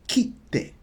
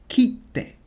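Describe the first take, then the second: Both takes have the same delivery.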